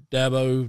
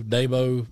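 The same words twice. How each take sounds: First: "Dabo" said DAB-oh, short A as in cab; "Dabo" rhyming its first syllable with cab. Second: "Dabo" said DAY-bo, long A as in day; "Dabo" opening like the word day; first-syllable long A. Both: Shown as a demonstration. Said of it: "is it Dabo or Dabo?".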